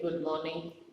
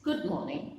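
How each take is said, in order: First: It is said coldly, without warmth. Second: It is said warmly, with affection.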